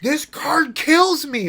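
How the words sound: It is said in an angry tone.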